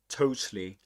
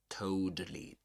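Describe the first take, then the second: First: The second T is a clear, crisp T sound. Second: The second T is flapped like a soft D. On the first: "British English" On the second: "the second T is a flap T ... That's in American English"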